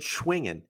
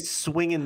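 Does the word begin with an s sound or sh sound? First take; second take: sh; s. First: The word begins with an sh sound. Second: The word begins with a plain s sound. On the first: The speaker calls it right. "I said Schwingin'" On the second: The speaker calls it wrong. "I didn't say Swingin' Swensday"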